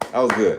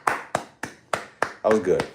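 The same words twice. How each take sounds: First: Said in the usual way. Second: Slow savoring praise. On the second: Shown as a demonstration.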